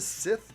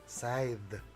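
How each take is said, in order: First: The vowel is a short 'i' sound. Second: The vowel is a long 'eye' sound. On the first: The speaker calls it wrong. "everyone was calling it a Sith" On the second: The speaker calls it right. "I think it's Scythe"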